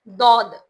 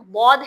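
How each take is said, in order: First: It starts with a heavy, thick d sound. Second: It starts with a sound from the tongue's side. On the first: The speaker calls it wrong. "जैसे कि दाल को मोटा पढ़ना ... ये बिल्कुल गलत है" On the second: The speaker calls it right. "बौद को बौद ही बोलना पड़ता है आपको"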